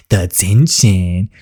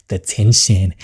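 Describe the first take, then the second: First: "the tension" drawn out slowly, savoring each word. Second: Said in the usual way. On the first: Shown as a demonstration. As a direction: stretch "the tension" out slowly for drama.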